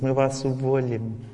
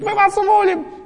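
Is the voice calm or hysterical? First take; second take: calm; hysterical. First: It is said lightly and calmly. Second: It is said in a tense, hysterical way. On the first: The threat is real and will be carried out. The speaker calls it right. "Что она так сказала, точно уволит" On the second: The threat may not be carried out. The speaker calls it wrong. "Если женщина истерит, не факт"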